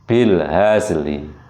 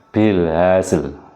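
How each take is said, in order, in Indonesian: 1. 'l' terakhir diikuti vokal samar setengah. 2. 'l' terakhir tidak diikuti vokal. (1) "linya ini dibaca uh, separuh dari dari huruf sebelumnya" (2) "mematikan dua huruf dengan suara pendek"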